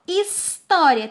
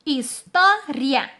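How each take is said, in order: First: Said in the usual way. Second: HISTÓRIA broken as "his... tó... ria"; slow beats on história, ria kept as one; split into syllables. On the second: Shown as a demonstration. Teacher dividing the example word, syllable by syllable. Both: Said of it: "elas ficarão juntas".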